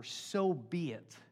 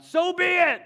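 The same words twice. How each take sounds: First: Very slow, measured; slow solemn. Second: Much higher and louder sudden yell. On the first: Shown as a demonstration. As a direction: draw it out gently. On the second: Retold or imitated. Cheryl yelling out mid-service, loud high yell. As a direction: blurt it out across church. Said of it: "if Cheryl started yelling out".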